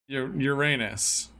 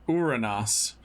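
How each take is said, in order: First: It is pronounced the Latin way. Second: It is pronounced the Greek way. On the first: It sounds like a dirty word. "if you call it by its Roman name instead of its Greek name" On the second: It is the planet's ordinary, clean name. "I call it by its Greek name"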